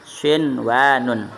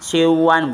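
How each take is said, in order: First: The n sound is pronounced clearly before w. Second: The n sound blends into the w. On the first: The speaker calls it right. "tapi sinwanun, bacanya jelas" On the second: The speaker calls it wrong. "bukan bacanya siwan, bukan"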